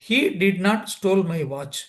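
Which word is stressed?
none. No single word is given special stress. He did not take my watch. "சாதாரணமாக சொன்னா"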